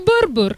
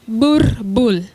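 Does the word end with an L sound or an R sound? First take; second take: R sound; L sound. First: The word ends with an R sound. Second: The word ends with an L sound. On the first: This is how the breed name should be said. The speaker calls it right. "give me the correct pronunciation" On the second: This is how people commonly say it. The speaker calls it wrong. "we usually say what?"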